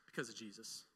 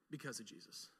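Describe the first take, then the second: First: Much softer, lower, almost hushed; soft answer. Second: Even softer, lower echo; soft repeat. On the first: Preacher answering his brother's question softly, hushed. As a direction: let it fall quietly and reverently. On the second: Preacher echoing the answer to the congregation, hushed. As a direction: repeat it barely above a breath. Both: Real, not acted.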